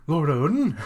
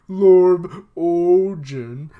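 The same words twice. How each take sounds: First: Said in the usual way. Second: Ojin drawn out slow and loud, as if sobbing; imitating a tearful cry of Lord Ojin; mock crying pronunciation. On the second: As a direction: say Lord Ojin like a wailing crier, stretched and blubbered. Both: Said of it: "I don't know how to say these words when they're crying".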